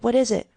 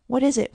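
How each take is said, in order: First: High, loud, falling on "is"; shocked cry repeated. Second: High, loud startled question; shocked cry. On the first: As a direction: ask again, aghast. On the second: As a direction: call out in shock at the noise. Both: A narrator's reading. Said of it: "cried Kitty, shocked beyond measure".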